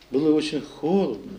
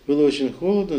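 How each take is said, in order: First: It sounds despairing and grief-stricken. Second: It sounds resilient and composed. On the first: The loss still feels unbearable. "Кошмар. Допустим, можно так" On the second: Life goes on despite the loss. "То есть сопротивление. То есть жизнестойкость"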